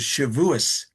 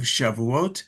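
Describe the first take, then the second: First: It is said in the Ashkenazi pronunciation. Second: It is said in the Sephardic pronunciation.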